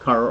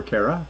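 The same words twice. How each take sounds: First: Kara as KAH-ruh, first vowel open. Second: Kara as KAIR-uh, rhyming with Sarah; Kara with AIR. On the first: Host repeating a viewer's name, Kara said KAH-ruh. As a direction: pronounce Kara to start like car. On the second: Host unsure of a viewer's name, Kara said KAIR-uh. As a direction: pronounce Kara to start like care. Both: Shown as a demonstration. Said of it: "not sure which way to say your name".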